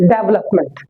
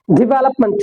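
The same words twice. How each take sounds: First: "डेवलपमेंट" as DEV-lup-ment; common mispronunciation. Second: "डेवलपमेंट" as di-VEL-up-munt; short "di" opening and weak ending in "डेवलपमेंट"; correct pronunciation. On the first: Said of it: "और पढ़ते क्या हम इसे". ("डेवलपमेंट" को डेव-लप-मेंट) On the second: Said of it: "correct pronunciation इसकी". ("डेवलपमेंट" को डिवेलपमंट) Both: Shown as a demonstration.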